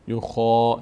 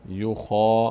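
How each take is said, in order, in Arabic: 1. الحركة بعد الخاء مفخّمة وثقيلة. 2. الحركة بعد الخاء مفخّمة وثقيلة.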